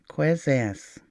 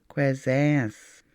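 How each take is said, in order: Both takes have the same delivery.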